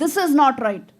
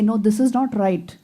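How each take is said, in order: First: It is said angrily and loudly. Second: It is said calmly and quietly.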